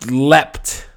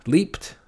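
First: Leapt with a short e, as "lept", loud; short-vowel leapt. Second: Leaped with a long ee, as "leept", questioning; long-vowel leaped. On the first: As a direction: try out "leapt" to rhyme with kept. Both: Real, not acted. Weighing two forms of the word.

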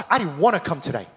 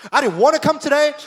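First: Said in the usual way. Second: "wanna" pushed up high and loud; high loud complaint. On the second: Retold or imitated. Worshipper complaining to God, raised high and loud. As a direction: vent it louder. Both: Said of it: "you're like".

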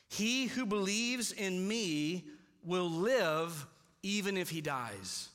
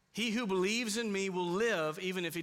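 First: Very slow, weighty reading of the verse; slow scripture read; slow solemn reading. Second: Said in the usual way. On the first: Shown as a demonstration. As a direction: let each word sink in. Reading the verse slowly first.

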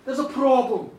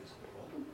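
First: Loud, firm admission; acted blunt confession; reluctant announcement. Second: Barely voiced, taken-aback question; acted hushed disbelief; hushed echo. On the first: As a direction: own up to it out loud. Woman admits problem to king. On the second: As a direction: echo it almost in a whisper. King echoes her, taken aback.

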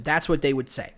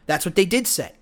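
First: Said in the usual way. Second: "did" hit hard, pitch falling after it; stress on did. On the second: Shown as a demonstration. Insisting to viewers that critics really said it, stress on "did". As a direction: lean on the word "did" to insist it really happened.

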